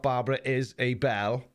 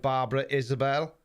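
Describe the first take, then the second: First: "is a Bell" split into three words; wrong name. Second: "Isabel" said as one name, IZ-a-bel; correct name. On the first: Mocking his own misreading to viewers, split into "is a Bell". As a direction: read "Barbara is a Bell" as a phrase. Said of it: "I think I should have said Barbara Isabel". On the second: Correcting himself to his listeners, "Isabel" as one name. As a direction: say "Barbara Isabel" as a proper name. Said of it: "not Barbara is a Bell". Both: Shown as a demonstration.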